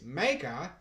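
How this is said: It is said in a put-on Australian accent. "That was a terrible Australian accent"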